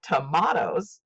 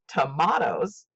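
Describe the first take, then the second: First: The stress is on the second syllable. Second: The same.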